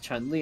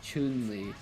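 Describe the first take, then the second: First: The vowel in Chun is short, not oo. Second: The vowel in Chun is a long oo. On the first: This is how the game narration says it. "Chun Li gets pronounced as" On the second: This is how the spelling suggests it should sound. "the U sound usually is like a long oo"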